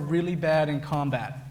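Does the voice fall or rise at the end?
fall. The voice does not rise at the end.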